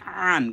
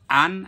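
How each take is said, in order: First: আন drawn out from mid-throat; throaty ain sound. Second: Said in the usual way. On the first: Shown as a demonstration. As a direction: start আন with a squeezed Arabic ain. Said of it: "কণ্ঠনালীর মাঝখান থেকে আসবে". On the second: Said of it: "এই দুটোর উচ্চারণ পার্থক্য করতে হবে".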